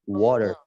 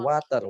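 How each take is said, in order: First: It is said with an American accent. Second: It is said with an Indonesian accent. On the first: The speaker calls it right. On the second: The speaker calls it wrong.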